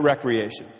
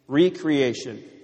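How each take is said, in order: First: The first syllable has a short 'rek' sound. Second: The first syllable has a long 'ree' sound. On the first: The speaker calls it wrong. "not recreation" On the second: The speaker calls it right. "Recreation, not recreation"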